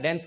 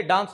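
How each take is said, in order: First: डांस said as "dens", front "ae" vowel; American-style vowel. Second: डांस with a long open "aa"; British-style vowel. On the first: Quoting people correcting others, डांस said with American "ae". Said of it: "डांस नहीं होता है". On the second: Quoting people who reject this form, डांस with long "aa". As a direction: say डांस as "daans", vowel as in "father". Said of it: "बहुत लोग बोलते हैं". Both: Retold or imitated.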